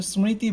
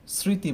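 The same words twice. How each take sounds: First: স্মৃতি with the m sounded, "smriti"; m pronounced. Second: স্মৃতি said "sriti", no m; silent m. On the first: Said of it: "আমরা কিন্তু স্মৃতি বলি না". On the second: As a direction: drop the ম from স্মৃতি: "sri-ti". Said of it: "ময়ের উচ্চারণটা করি না". (স্মৃতি-র ম বাদ দিয়ে "স্রিতি" উচ্চারণ) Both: Shown as a demonstration.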